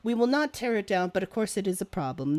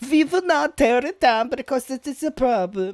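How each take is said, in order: First: It is read in the speaker's ordinary accent. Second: It is spoken in an imitated German accent.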